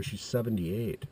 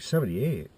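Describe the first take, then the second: First: Said in the usual way. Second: Higher, falling incredulous echo. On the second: Retold or imitated. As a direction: imitate a dad taken aback by a number. Dad echoes age in disbelief.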